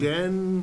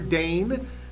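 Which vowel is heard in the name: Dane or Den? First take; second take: Den; Dane. First: The name is said with a short 'e' vowel. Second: The name is said with a long 'ay' vowel. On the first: The speaker calls it wrong. "That's what they're going to say" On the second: The speaker calls it right. "and it's not spelled Dane"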